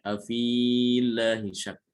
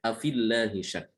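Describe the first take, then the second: First: Afillahi with the long i after f held; wrong long vowel. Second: Afillahi with the fi cut short, long vowel dropped; correct short vowel. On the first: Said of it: "Jadi tidak boleh dibacanya". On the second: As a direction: say Afillahi with a short fi joined to lla. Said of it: "cara bacanya adalah dengan menghilangkan huruf mat". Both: Shown as a demonstration.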